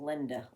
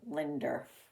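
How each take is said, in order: First: The name ends in a plain vowel. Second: The name ends with an added r sound. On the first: The speaker calls it right. "the female name Linda" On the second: The speaker calls it wrong. "Sometimes Linder comes out of people's mouths"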